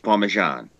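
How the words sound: The final vowel is dropped; it ends in a consonant. This is how it is said in the south. "down south, it's Parmesan. They drop the last part of it"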